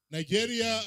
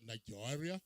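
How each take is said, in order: First: "Nigeria" called out high and loud with a falling tune; "Nigeria" shouted as a plain roll-call call; first try at the intonation. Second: "Nigeria" said low and soft with a rising tune; "Nigeria" tried quietly with a rising lilt; second try at the intonation. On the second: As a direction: try "Nigeria" again, softer and lower, lifting at the end. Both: Shown as a demonstration. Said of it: "I have failed to get the intonation".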